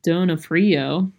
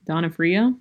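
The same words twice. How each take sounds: First: "Donofrio" drawn out, opening on a long OH sound; first pronunciation attempt. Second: "Donofrio" opening on DON with an AH sound; retry "Donofrio" as DON-uh-free-oh, questioning; second pronunciation attempt. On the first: Reader unsure of the actor's name, tries "Donofrio" as DOH-no-free-oh. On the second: Reader unsure of the actor's name, retries "Donofrio" as DON-uh-free-oh. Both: Real, not acted. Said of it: "whoever that is".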